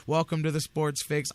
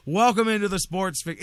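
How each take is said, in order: First: Easy, cheerful show opener; smiley happy welcome. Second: Louder, punchy radio-host welcome; loud announcer welcome. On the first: Shown as a demonstration. Host describing his usual happy opening, easygoing welcome. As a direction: greet them like you're glad they came. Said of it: "I like to open, smile, happy". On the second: Real, not acted. Radio host kicking off the show, louder announcer welcome. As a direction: hit the show name like a big opener. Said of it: "I did not wanna do that".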